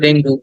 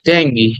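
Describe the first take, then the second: First: The word ends with an 'oo' vowel. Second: The word ends with an 'ee' vowel. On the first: This is the Bengali form. "এটা বাংলায় শব্দটা ডেঙ্গু" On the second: This is the English form. "ইংরেজিতে বললে বলতে হবে ডেঙ্গি"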